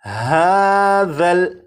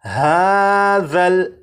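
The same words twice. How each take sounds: The two takes are said the same way.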